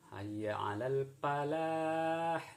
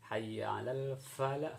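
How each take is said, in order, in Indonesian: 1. Falah dimulai dengan bunyi p dua bibir. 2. Falah dimulai dengan bunyi f bibir dan gigi. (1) "itu yang salah"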